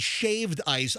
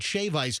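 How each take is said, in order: First: A d sound ends the first word. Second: No d sound ends the first word. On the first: The speaker calls it wrong. "I didn't say shaved ice" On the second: The speaker calls it right. "I said shave ice"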